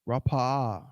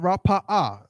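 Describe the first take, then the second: First: The word flows smoothly with a small dip. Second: The word is broken apart with a break. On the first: It is heard as one word. The speaker calls it right. "It should be like a small little dip" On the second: The first sound might seem a separate word. The speaker calls it wrong. "not Rapa'a"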